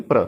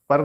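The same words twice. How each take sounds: First: प्र with no vowel inside; one-beat प्र; joined blend. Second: पर with a vowel between प and र; higher-pitched पर, sounds apart; wrong split blend. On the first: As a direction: run प straight into र in प्र. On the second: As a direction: say पर as "pur". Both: Shown as a demonstration. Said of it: "पर नहीं, प्र".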